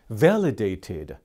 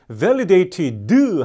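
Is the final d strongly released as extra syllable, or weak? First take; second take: weak; extra syllable. First: The final d is pronounced weakly, with no extra syllable. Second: The final d is released as an extra syllable. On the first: The speaker calls it right. "약하게 발음이 나는 겁니다" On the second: The speaker calls it wrong. "하나의 음절이 추가되는 것이기 때문에 틀린 발음입니다"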